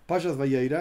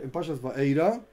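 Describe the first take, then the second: First: "Vayeira" said as ba-YEI-ra with a clear y sound; corrected parsha name. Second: "Va'eira" said as ba-EI-ra, no y sound; wrong parsha name. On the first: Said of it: "perdón". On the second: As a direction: slip into "Va'eira" before correcting. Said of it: "perdón, Pashas Vayeira". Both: Real, not acted.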